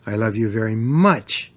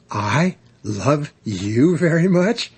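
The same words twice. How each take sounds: First: "much" punched at the end; stress on MUCH. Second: Slow question, rising high on "much". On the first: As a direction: build to a strong, falling "much". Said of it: "putting the emphasis on any one". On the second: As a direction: ask it incredulously slowly, lifting "much" at the end. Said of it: "making the sentence a question". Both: Shown as a demonstration.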